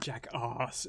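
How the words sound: It is said in a regional British accent. "If it was regional British"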